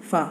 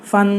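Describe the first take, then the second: First: "ফা" as an open syllable ending on aa; teacher's demo of "ফা", ending on the vowel; short-vowel demo. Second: "ফান" closed with an added n; teacher's demo of "ফান", aa plus n; tanween demo. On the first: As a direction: say "ফা" with no n at the end. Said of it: "ফ আকার". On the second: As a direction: end "ফান" on a clear n sound. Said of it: "দন্তন বাড়িয়ে দিতে হবে". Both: Shown as a demonstration.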